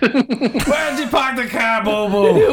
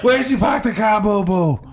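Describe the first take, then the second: First: High, slow Boston voice, car dropped to kah; Boston accent. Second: Higher Boston voice, car as kah; quick Boston line; Boston accent. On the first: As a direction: drawl it out like a Boston guy. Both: Acted. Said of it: "what I was doing was a Boston accent".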